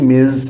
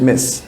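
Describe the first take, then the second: First: The word ends with a buzzing z sound. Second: The word ends with a hissing s sound. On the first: The speaker calls it wrong. "your book spells M I Z, Miz. No, it's not Miz" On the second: The speaker calls it right. "it's Miss. Short"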